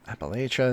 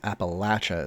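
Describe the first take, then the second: First: It is said with the northern regional pronunciation. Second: It is said with the southern regional pronunciation. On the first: This is how northerners say it. "is the north" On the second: This is how southerners say it. "is the south"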